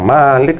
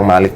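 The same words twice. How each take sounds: First: The first vowel is said long. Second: The first vowel is said short. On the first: It means ruler. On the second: It means king.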